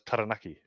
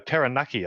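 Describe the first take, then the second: First: The name is said with Māori sounds. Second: The name is said with anglicised English sounds. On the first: This is the proper pronunciation. The speaker calls it right. "the correct pronunciation is" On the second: This is how radio announcers were once taught to say it. The speaker calls it wrong. "we were literally taught that the correct way on radio to pronounce Taranaki is"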